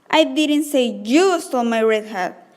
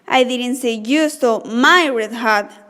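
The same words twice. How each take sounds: First: The stress falls on the word you. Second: The stress falls on the word my.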